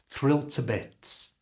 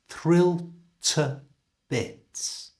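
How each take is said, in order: First: The phrase is said at normal, fast speed. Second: The phrase is said slowly. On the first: "at normal speed" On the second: "So slowly"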